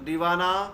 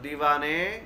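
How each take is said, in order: First: The word ends in an 'a' vowel. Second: The word ends in an 'e' vowel. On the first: This is how it is read in Urdu. "Urdu के अंदर पढ़ते हैं हम तो" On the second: This is how it is read in Persian. "फारसी के अंदर पढ़ेंगे तो"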